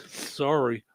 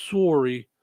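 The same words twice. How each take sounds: First: Said in the usual way. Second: "Sorry" with a rounded Canadian "oh" vowel; Canadian-accented "Sorry", first vowel rounded. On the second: Shown as a demonstration. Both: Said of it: "'cause it's Canadian".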